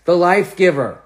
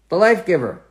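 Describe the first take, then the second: No difference in how they are said.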